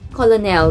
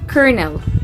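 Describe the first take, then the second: First: It is pronounced the way it is spelled. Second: It is not pronounced the way it is spelled. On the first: The speaker calls it wrong. "because of its spelling" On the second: The speaker calls it right. "the correct pronunciation of that word is colonel"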